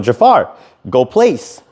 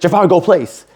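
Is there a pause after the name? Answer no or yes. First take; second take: yes; no. First: There is a clear pause after the name. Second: The words run together without a pause. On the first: The dog can take in each word separately. The speaker calls it right. "I'm using pauses in between my words" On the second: The dog hears its name but misses the command. The speaker calls it wrong. "if I just say"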